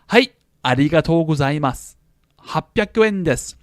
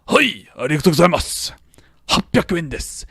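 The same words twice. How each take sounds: First: Each word is carefully and clearly enunciated. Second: The words are slurred together casually.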